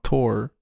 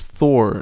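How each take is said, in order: First: The name begins with a hard 't' sound. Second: The name begins with a soft 'th' sound. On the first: The speaker calls it wrong. "not Tor" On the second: The speaker calls it right. "if it's in English, it's Thor"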